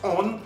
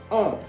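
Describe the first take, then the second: First: The vowel is oral, with a clear n. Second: The vowel is nasal, with no clear n. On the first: The speaker calls it wrong. "No decimos on" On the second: The speaker calls it right. "es como nasal"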